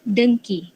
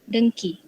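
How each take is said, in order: No difference in how they are said.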